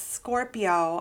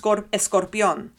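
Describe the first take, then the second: First: The surname is said with English pronunciation. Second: The surname is said with Spanish pronunciation. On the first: The name is adapted for English speakers. The speaker calls it wrong. "I don't say" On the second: The name shows the speaker's Latin heritage. The speaker calls it right. "I'll say my last name the way it's supposed to be pronounced"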